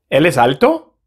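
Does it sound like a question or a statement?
question. It is said with question intonation. It asks a question.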